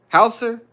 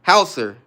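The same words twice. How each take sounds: First: High, questioning "Hauser?", HOW-ser; "Hauser?" as a high two-syllable question; unsure pronunciation HAUSER. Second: Loud, falling "Hauser", HOW-ser; "Hauser" sounded out loudly in two syllables; trying out HAUSER. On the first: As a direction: try "Hauser?" pitched right up, asking if it is right. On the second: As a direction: test "Hauser" firmly as a statement, dropping at the end. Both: Real, not acted. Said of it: "Is that how you say it?".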